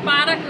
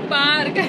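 First: पार्क broken into two syllables, 'paa-rak'; गलत उच्चारण. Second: पार्क as one syllable, 'paark'; सही उच्चारण. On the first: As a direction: say पार्क with an extra vowel before 'k'. (पार्क को 'पारक' बोलकर) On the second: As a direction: correct it to पार्क, no vowel between r and k. (पार्क, 'र' और 'क' जोड़कर) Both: Retold or imitated. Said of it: "पार्क को पार्क बोलता है".

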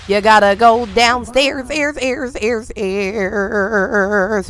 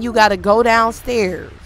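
First: Word ending repeating and fading away; mouth-made echo effect; imitated echo. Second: Said in the usual way. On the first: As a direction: make your own echo on the last syllable, trailing off softly.

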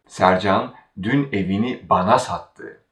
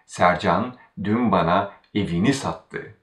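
First: Bana made the focus before sattı; stress on bana. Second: Evini made the focus before sattı; stress on evini. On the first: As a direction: put the weight on bana. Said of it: "Now we focus on bana". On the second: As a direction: put the weight on evini. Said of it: "the constituent right before the verb evini has". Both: Shown as a demonstration.

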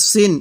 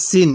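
First: "সিন" with the heavy Arabic sad; Arabic sad sound. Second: "সিন" with a thin, pressed s; Arabic seen sound. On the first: Teacher contrasting two letters, heavy sad in "সিন". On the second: Teacher contrasting two letters, thin seen in "সিন". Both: Shown as a demonstration. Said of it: "উচ্চারণে অনেকটাই difference".

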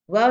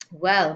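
First: Short, rising, unfinished word; hesitant. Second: Said in the usual way. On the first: A narrator's reading. Small girl stalls, refusing to say no, hesitant. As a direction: stall with a questioning lift. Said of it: "hesitating, still refusing to say no". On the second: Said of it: "Then she hesitated".

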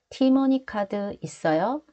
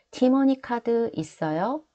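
First: 티머니 카드 있어요 repeated with the end rising; rising question tune. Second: 티머니 카드 있어요 with the pitch rising at the end; rising question tune. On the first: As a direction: ask it, tone going up on 있어요. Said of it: "One more time". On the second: Teacher modelling 있어요 to learners as a rising question. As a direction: lift the tone at the end of 있어요 to ask. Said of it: "Make sure you raise up the tone at the end". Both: Shown as a demonstration.

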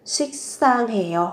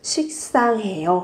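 First: 식상해요 with a tense doubled s at the start of the second syllable, like 식쌍해요; doubled s sound. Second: Said in the usual way. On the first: Shown as a demonstration. Teacher models 식상해요 for learners with a doubled tense s. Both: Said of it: "chú ý gấp đôi phụ âm sờ".

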